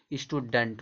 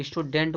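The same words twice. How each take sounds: First: "स्टूडेंट" as ishtu-dunt; "स्टूडेंट", last vowel weakened; correct pronunciation. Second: "स्टूडेंट" with a full -dent; quick mistaken "स्टूडेंट", clear e; wrong pronunciation. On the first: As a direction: say "स्टूडेंट" with uh before nt. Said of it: "होता है". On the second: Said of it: "गलत पढ़ते हो". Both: Shown as a demonstration.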